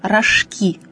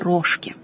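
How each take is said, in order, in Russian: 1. Ударение на последнем слоге. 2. Ударение на первом слоге. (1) "произносится с ударением на последнем слоге" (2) "а не рожки"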